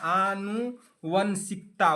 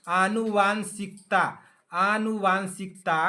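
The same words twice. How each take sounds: First: आनुवंशिकता drawn out very slowly, each syllable apart; slow dictation. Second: आनुवांशिकता said slowly with a long वां; corrected pronunciation. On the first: Teacher correcting students' spelling, very slow dictation. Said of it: "आनु ना". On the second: Teacher correcting students' spelling, stressing वां slowly. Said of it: "वांशिकता ना". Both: Shown as a demonstration.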